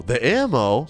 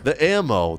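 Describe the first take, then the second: First: "The ammo?" asked with a rising end; "The ammo?" said as a puzzled question, the tune going up at the end. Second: "The ammo." as a flat statement with a falling end; "The ammo." said flatly, the tune dropping at the end. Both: Retold or imitated.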